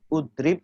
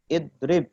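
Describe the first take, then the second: First: The word begins with a u vowel. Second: The word begins with an i vowel. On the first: The speaker calls it wrong. "tidak ud, udrib" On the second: The speaker calls it right. "Fi'il amr juga sama"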